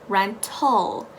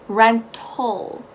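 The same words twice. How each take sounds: First: The second vowel is a reduced 'uh' sound. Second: The same.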